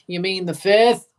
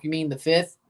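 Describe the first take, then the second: First: Louder sarcastic question. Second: Said in the usual way. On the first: Real, not acted.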